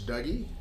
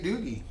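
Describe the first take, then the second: First: The first vowel sounds like the one in 'cup'. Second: The first vowel sounds like the one in 'boot'. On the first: This is how people west of the Rockies say it. "I think it's Dougie" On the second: This is how people east of the Rockies say it. "Some folks say Doogie"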